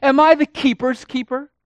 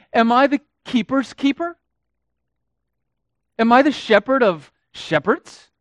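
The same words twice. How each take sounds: First: Much higher and louder sneer, rising; cynical sarcasm. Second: High, loud, sneering mock question; mock God with cynical pride; sarcastic mockery. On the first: Acted. Cain sneering at God, high and loud. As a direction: throw it out with puffed-up pride. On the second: Cain mocking God with sarcasm, loud and high. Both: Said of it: "cynicism and sarcasm in his voice".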